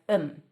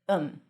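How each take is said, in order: First: The th is dropped, leaving a short um. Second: The th is dropped, leaving a short um.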